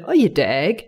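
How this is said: It sounds affectionate and teasing.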